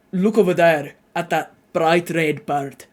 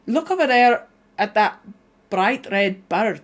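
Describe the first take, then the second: First: Lower, less twangy Scottish attempt; lowered pitch. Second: High, twangy Scottish attempt. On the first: Streamer retrying Scottish line, lowered voice. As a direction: bring the Scottish accent down out of the twang. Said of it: "I need to lower it". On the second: Streamer practising Scottish for chat, high and twangy. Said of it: "I am really high and twangy". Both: Shown as a demonstration.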